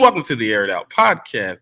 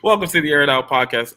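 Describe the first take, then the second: First: It is said in a put-on announcer voice. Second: It is said in a normal speaking voice.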